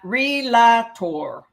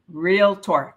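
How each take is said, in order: First: The word is said with three syllables. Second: The word is said with two syllables. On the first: The speaker calls it wrong. "not relator" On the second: The speaker calls it right. "It has two syllables, real and tor"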